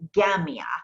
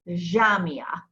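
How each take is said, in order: First: It starts with a hard g sound. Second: It starts with a soft zh sound. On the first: This is how Egyptians say it. "Egyptians will say Gamia" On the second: This is how Lebanese speakers say it. "Lebanese, Jamia"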